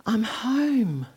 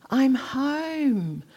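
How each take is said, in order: First: I'm home with the weight falling on home; stress on home. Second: I'm home said higher, with I'm lifted and stressed. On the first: First realising where she belongs, stress on home. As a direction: lean into home and let it fall. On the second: Repeating it to herself in awe, stress on I'm. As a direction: push I'm up high, then let home fall. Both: Retold or imitated.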